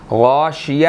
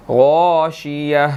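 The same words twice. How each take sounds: First: غاشیہ with a light thin a after gh, the incorrect reading; wrong way. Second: غاشیہ slowly, with heavy rounded gho and the ending drawn out; correct way. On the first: Teacher shows the mistaken reading, light ghain. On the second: Teacher gives the correct reading, slow and heavy. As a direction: stretch غاشیہ with a full heavy ghain. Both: Shown as a demonstration. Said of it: "غاشیہ نہیں پڑھیں گے".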